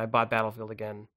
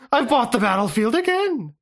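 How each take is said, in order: First: It is said in the speaker's normal voice. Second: It is said in a put-on character voice.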